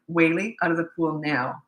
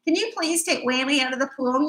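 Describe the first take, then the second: First: Calm command. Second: Higher, pleading request; overly polite plea. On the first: Retold or imitated. Mom ordering a naughty boy from the pool, calm and firm. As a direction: state it once, no fuss. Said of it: "very calmly". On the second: Shown as a demonstration. Mom mock-pleading with a naughty boy, overly polite. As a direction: beg nicely, the way she never would. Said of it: "I don't talk like that".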